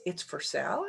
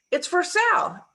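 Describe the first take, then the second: First: Low, softer, rising on "sale"; hushed question with "sale" turned upward; questioning echo. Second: Higher, falling on "sale"; statement tune. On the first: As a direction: ask it back quietly, lifting "sale" at the end. Partner questions seller's line back. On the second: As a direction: announce it, landing "sale" with a drop in pitch. Seller's line in retold dialogue. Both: Retold or imitated.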